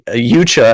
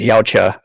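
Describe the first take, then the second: First: The word begins with a 'yoo' sound. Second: The word begins with a 'yow' sound. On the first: Someone else said it this way. "as Frank pronounced it" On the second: The speaker believed it was said this way. "I thought it was Yautja"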